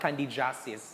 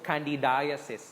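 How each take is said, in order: First: The -iasis ending is said the common local way. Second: The -iasis ending is said the recommended way. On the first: The speaker calls it wrong. "not candidiasis" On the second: The speaker calls it right. "So candidiasis"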